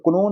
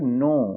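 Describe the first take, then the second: First: The word starts with a K sound. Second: The word starts with an N sound. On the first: The speaker calls it wrong. "क्नो नहीं होगा" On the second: The speaker calls it right. "के silent हो जाएगा"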